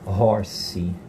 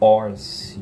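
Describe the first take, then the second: First: The word begins with a breathy h sound. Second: The word begins directly with the vowel sound. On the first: The speaker calls it right. "ele pode ter um som aspirado" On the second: The speaker calls it wrong. "eu não falo"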